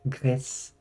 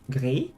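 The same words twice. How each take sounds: First: The final S is clearly sounded, Spanish style. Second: The final S is silent, French style. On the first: The speaker calls it right. "you do actually pronounce the S" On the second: The speaker calls it wrong. "because I speak French and that's how you do it"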